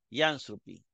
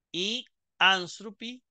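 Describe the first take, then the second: First: "Y anthropi" run together as "yanthropi"; lower, joined-up "Y anthropi" with no break; read as one word. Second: "y" held apart from "anthropi"; slow, higher "y anthropi" as two words; article read separately. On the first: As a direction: glide from "Y" straight into "anthropi". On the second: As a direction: leave a gap between "y" and "anthropi". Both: Shown as a demonstration. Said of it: "la leemos como una sola".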